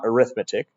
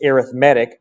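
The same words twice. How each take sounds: First: It is said with the noun pronunciation. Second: It is said with the adjective pronunciation. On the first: It names the subject of calculating numbers. The speaker calls it wrong. "not arithmetic. Arithmetic is the noun" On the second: It describes a type of sequence. The speaker calls it right. "it's arithmetic, As an adjective, we pronounce it arithmetic"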